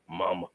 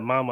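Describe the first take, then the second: First: It is said in a very deep voice. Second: It is said in an ordinary voice.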